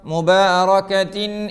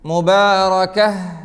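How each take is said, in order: First: The word ends in a 'tin' sound. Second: The word ends in a soft h sound. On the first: The reciter joins this word to the next one. "ചേർത്തി ഓതുമ്പോഴോ" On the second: The reciter stops after this word. "നിർത്തുകയാണെങ്കിൽ"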